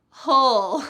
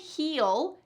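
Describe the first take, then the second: First: The vowel is reduced to a short schwa. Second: The vowel is a clear long ee sound. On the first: This is how it sounds in quick speech. "which becomes hull" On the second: This is the very clear form. "You could say heel, heel, that's very clear"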